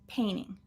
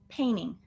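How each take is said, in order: No difference in how they are said.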